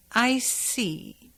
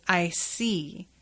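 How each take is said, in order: First: A touch higher, mysteriously knowing; hint he truly sees inside her. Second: Said in the usual way. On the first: Retold or imitated. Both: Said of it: "You mean that literally".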